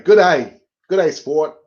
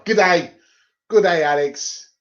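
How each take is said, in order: First: Jokey put-on Australian accent; Aussie accent. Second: Put-on Aussie accent slipping into Scottish; botched Aussie accent. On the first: Greeting a mate in a mock Aussie accent. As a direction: have another go at an Aussie greeting. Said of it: "it's gone all Aussie on me". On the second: Greeting Alex in a failed Aussie, Scottish-sounding accent. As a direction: try Australian, land nearer Scottish. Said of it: "that was a Scottish accent, wasn't it?".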